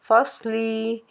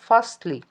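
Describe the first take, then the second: First: The final vowel is drawn out long. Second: The final vowel is kept short. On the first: The speaker calls it wrong. "लाम ज़ेर ली को थोड़ा-सा लंबा करके पढ़ लेते हैं" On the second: The speaker calls it right. "लंबा करके नहीं पढ़ना बल्कि शॉर्ट पढ़ना है। एक हरकत के बराबर"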